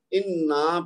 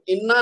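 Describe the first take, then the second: First: انا with the last aa stretched slowly; long final vowel. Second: انا cut short after the doubled n; short final vowel. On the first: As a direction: say انا as in-naaa, held ending. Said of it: "انا پڑھنا ہے". (انا کا آخر لمبا کھینچ کر) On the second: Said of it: "تو انا نہیں پڑھنا". (انا کا آخر چھوٹا) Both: Shown as a demonstration.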